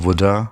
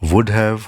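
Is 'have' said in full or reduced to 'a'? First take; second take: reduced; full. First: The word 'have' shrinks to a weak 'a'. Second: The word 'have' is said in full.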